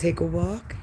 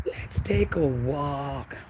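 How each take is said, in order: First: Said in the usual way. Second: Slow breathy whisper, words drawn out. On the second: Pretend. Vlogger inviting viewers on a walk, whispered slowly. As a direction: hush it like a secret invitation.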